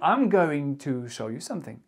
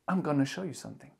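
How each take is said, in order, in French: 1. 'Going to' se dit en entier. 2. 'Going to' se contracte en 'gonna'. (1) "Au lieu de dire I'm going to show you something" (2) "vous pouvez dire look, come, I'm gonna show you something"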